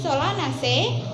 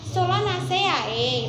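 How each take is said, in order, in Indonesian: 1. Vokal akhiran digabung menjadi satu bunyi. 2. Setiap vokal pada akhiran dilafalkan terpisah. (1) "Harus Solanaceae" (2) "Jangan Solanaceae gitu ya, nggak boleh ya"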